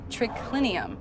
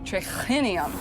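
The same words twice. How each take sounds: First: The k sound is plain, without h. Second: The k sound has an added h breath. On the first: This is how a Latin speaker from Italy says it. "They would have just said triclinium" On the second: The writer was likely not a native Latin speaker. "triclinium has an H in it, so it would be pronounced"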